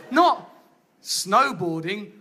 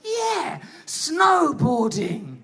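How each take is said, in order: First: Low, slow deflated. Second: Drawn-out excited cheer; slow hyped shout. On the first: Shown as a demonstration. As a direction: sink into disappointment. Reality of snowboarding. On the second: Retold or imitated. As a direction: hype it like an ad. Imagined cool snowboarding image.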